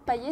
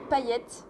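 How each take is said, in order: First: The name ends without a T sound. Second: The name ends with a T sound. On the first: The speaker calls it wrong. "ça se prononce pas Paillet" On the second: The speaker calls it right. "ça se prononce Paillette"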